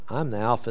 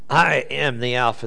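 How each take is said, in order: First: It is said quietly in a low voice. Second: It is said loudly and forcefully. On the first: It still carries the same power. "in a very low voice" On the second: It shows dominance and authority. "you can say that loud"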